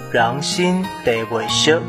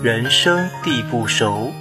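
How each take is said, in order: First: It is pronounced in Minnan. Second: It is pronounced in standard Mandarin. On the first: "读作" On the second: "我们来学一句长句"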